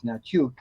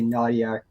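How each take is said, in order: First: The name is said the Ukrainian way. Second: The name is said an anglicized way. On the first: This is how the family name is really pronounced. The speaker calls it right. "The actual U- Ukrainian pronunciation is Natiuk" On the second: This is how other people usually say the name. The speaker calls it wrong. "people never say that. They say Nadiak"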